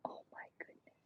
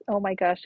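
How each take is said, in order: First: Barely voiced whisper; soft whispered oh my goodness; whispered awe. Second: Said in the usual way. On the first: Real, not acted. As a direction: breathe it out in a hush. Overwhelmed while ads play.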